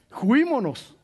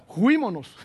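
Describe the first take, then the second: First: Juímonos drawn out slowly through a laugh. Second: A light Cantinflas juímonos; lightly voiced Cantinflas slang. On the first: Retold or imitated. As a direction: chuckle through the Cantinflas word. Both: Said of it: "como dijo Cantinflas".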